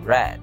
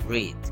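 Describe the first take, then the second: First: It is pronounced as the past-tense form. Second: It is pronounced as the present-tense base form. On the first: The action happened in the past. The speaker calls it right. "Itu dibaca read" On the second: The verb is in its base form. The speaker calls it wrong. "bukan dibaca read"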